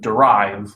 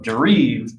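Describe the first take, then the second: First: It is said with American English pronunciation. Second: It is said with French-style pronunciation. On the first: It means to draw something from something else. "the like the American English word derive" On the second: It means drifting. "He's talking about derive, which loosely translates to drifting"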